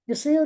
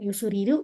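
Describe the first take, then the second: First: The consonants cluster with no extra vowels. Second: Extra u vowels are added between the consonants. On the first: The name keeps its original pronunciation. The speaker calls it right. "tapi Yusril des gitu" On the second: The name is adapted to Japanese sound patterns. The speaker calls it wrong. "Jadi bukan Yusuriru misalnya"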